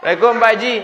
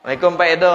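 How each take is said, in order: First: High, laughing call of greeting; playful high greeting with laughter; mock eager greeting. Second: Said in the usual way. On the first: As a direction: call out to him with the proud title. Greeting with Haji title.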